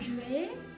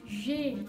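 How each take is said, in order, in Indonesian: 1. Vokal pada je dipertahankan sepenuhnya. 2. Vokal pada je dihilangkan dan digabung. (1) "jadi bukan je ya" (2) "tapi J ya"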